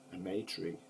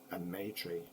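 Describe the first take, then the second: No difference in how they are said.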